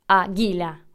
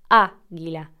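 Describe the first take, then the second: First: The stress is on a later syllable. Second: The stress is on the first syllable. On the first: The speaker calls it wrong. "no decimos águila o águila" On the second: The speaker calls it right. "es águila"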